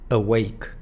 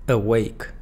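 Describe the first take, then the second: Both takes have the same delivery.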